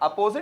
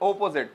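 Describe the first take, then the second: First: The word begins with an a vowel sound. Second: The word begins with an o vowel sound.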